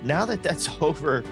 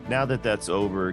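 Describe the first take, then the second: First: The voice is lively, moving up and down in pitch. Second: The voice is flat and monotone, with little pitch movement. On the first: The caller keeps the listener engaged. The speaker calls it right. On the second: The caller sounds disengaged and scripted. The speaker calls it wrong. "now I sound like a robot"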